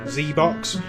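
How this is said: The letter is said as zee, American style.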